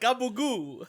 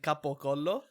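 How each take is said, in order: First: It is said with an Italian-American pronunciation. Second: It is said with a standard Italian pronunciation. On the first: The speaker calls it wrong. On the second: The speaker calls it right.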